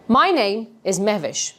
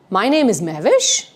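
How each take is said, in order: First: "Mehvish" falling to a settled close; sure, weighty statement with "Mehvish" going down; downward inflection. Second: "Mehvish" swung up at the end like a question; unsure uptalk lift on "Mehvish"; upward tone. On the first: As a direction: state it as fact, dropping the pitch on "Mehvish". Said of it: "I'm going to bring a downward inflection in my tone". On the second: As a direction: say it as if asking, "Mehvish" rising. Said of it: "I'm going to move this upward tone". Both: Shown as a demonstration.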